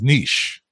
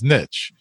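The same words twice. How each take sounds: First: It is said with a British pronunciation. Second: It is said with an American pronunciation. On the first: "a British will pronounce it as niche" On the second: "An American may pronounce it as niche"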